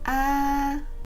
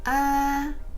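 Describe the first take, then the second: First: The pitch stays high and level. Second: The same.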